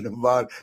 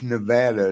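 First: The word is said the non-local way. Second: The word is said the local way. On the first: This marks the speaker as an outsider. The speaker calls it wrong. "It's not Nevada. They get mad if you say it wrong" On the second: This is how residents say the name. The speaker calls it right. "it's Nevada"

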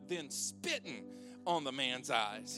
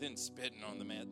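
First: It is read in a lively, dramatic way. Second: It is read in a flat, plain way. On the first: The speaker calls it right. "you got to read it with the right tone" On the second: The speaker calls it wrong. "it just sounds kind of like, you know, just average, vanilla"

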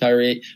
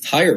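First: The name ends in a long 'ee' sound. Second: The name ends without a long 'ee' sound. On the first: The speaker calls it wrong. "I was calling him Tyree the whole time" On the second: The speaker calls it right. "is the correct pronunciation"

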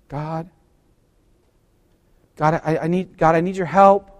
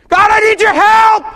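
First: It is said at a calm, ordinary volume. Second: It is screamed at full volume.

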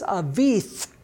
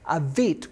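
First: The word ends in a 'th' sound. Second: The word ends in a hard 't' sound. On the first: The speaker calls it wrong. "that says Avith with a T-H on the end" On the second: The speaker calls it right. "Avit with a hard T. No T-H"

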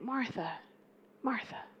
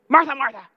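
First: It is said in a gentle, loving tone. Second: It is said in a stern, scolding tone.

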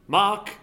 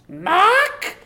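First: It is said in a normal voice. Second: It is said in a put-on witch's voice.

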